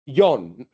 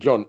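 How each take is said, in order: First: The name is said the Norwegian way. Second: The name is said the non-Norwegian way. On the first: This is how the name's own people say it. "that's how probably they pronounce it" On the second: This is how outsiders usually say the name. "We pronounce it"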